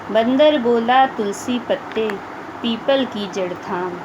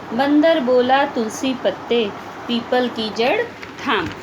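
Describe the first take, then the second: The two takes are said the same way.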